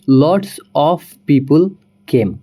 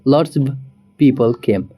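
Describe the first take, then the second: First: The word 'of' is said in full. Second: The word 'of' is reduced to a short sound. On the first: "जैसे कि हम बोलते हैं" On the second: "native तरीके से"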